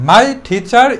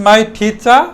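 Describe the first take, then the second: The two takes are said the same way.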